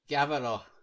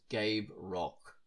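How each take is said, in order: First: The name is said with a German accent. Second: The name is said with an English accent. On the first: "If I was to do a German pronunciation" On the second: "Or an English pronunciation is"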